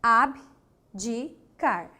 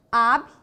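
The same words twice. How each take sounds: First: Abdicar said very slowly as a-bi-di-car; syllable split, right way. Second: Abdicar broken as ab- with a jump; syllable split, wrong way. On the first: Teacher slowly spells out Abdicar for the class. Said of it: "agora o B ficou em uma sílaba". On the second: Teacher shows the wrong split of Abdicar. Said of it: "Não é assim?". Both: Shown as a demonstration.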